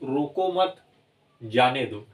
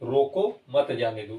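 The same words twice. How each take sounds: First: There is a pause after mat. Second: There is a pause after roko. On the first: Do not stop him, let him go. "अगर यही चिन्ह यहाँ लग जाता है" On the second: Stop him, do not let him go. "लगा है तो आपको रुकना है यहाँ पे अल्प समय के लिए, रोको, फिर आप बोलेंगे मत जाने दो"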